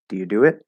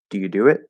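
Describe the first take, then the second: First: The first helping verb do is unstressed. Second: The first helping verb do is unstressed.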